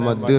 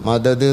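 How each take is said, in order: First: The two d sounds merge into one doubled d. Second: The two d sounds are separated by a vowel. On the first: The speaker calls it right. "മദ് എന്നേ" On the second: The speaker calls it wrong. "മദദ് എന്ന് പറയാൻ പാടില്ല"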